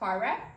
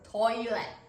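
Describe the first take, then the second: First: It is said with two syllables. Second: It is said slowly with three syllables. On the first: "is two syllable" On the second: "it's gonna be three syllables"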